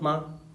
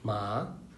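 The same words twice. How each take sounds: First: The syllable is short, plain and unraised. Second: The syllable carries the second tone. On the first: "एकदम न्यूट्रल सा रहता है" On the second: "second"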